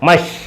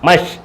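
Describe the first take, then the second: No difference in how they are said.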